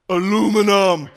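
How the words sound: The word is said with an American pronunciation.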